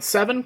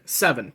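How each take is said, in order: First: The pitch rises at the end. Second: The pitch falls at the end. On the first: It is a question. "seven question mark" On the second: It is a firm statement. "seven period"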